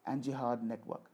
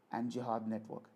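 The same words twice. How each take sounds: The two takes are said the same way.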